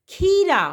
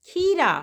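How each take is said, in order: Both takes have the same delivery.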